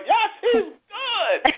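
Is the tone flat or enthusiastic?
enthusiastic. It is said with lively enthusiasm.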